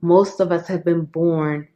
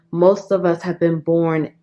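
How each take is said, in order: Both takes have the same delivery.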